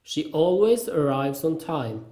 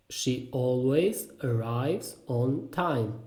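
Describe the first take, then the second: First: Said in the usual way. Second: Very slow, word by word, softer; slow repeat. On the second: Shown as a demonstration. Teacher repeats a sentence about punctuality, slowly and separately. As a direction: space out each word for learners. Phrase drill, slower repeat.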